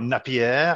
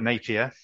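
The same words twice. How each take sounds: First: The name is said a non-British way. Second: The name is said the British way. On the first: The speaker calls it wrong. "and not" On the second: The speaker calls it right. "do my best to be properly British and call it Napier"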